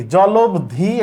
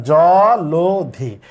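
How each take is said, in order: First: জলবধি said as a mistaken form with an extra ব, shown as wrong; wrong pronunciation. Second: জলধি slowly as "জলোধি", ল with o sound; drawn-out correct জলধি after the wrong ones; correct pronunciation. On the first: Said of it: "এটা হয় না". (ভুল উচ্চারণ জলবধি দেখানো) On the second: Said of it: "তাহলে জলধি". (সঠিক উচ্চারণ জলধি, ধীরে) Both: Shown as a demonstration.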